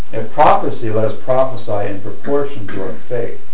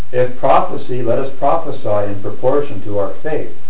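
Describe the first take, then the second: The two takes are said the same way.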